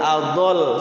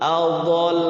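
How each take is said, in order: First: The final consonant is single and released at once. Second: The final consonant is doubled and held before release. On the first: The speaker calls it wrong. "Kalau adol satu dia" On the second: The speaker calls it right. "kalau ditahan dia karena bertasydid"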